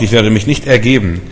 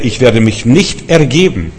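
First: Said in the usual way. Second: Slow, weighty stress through NICHT ERGEBEN; emphatic refusal. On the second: Acted. Hiskia defying Sennacherib, slow emphatic refusal. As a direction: spell out NICHT ERGEBEN slowly and firmly.

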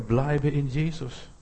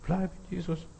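First: Slow, drawn-out exhortation at normal volume; slow encouragement. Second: Hushed, higher-pitched gentle urging; soft encouragement. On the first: Preacher encouraging believers to stay, slow and steady. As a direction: encourage them, stretching the words out. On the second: Preacher encouraging believers to stay, hushed and tender. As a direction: say it softly, nearly under your breath. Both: Acted. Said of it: "ermutigt werden".

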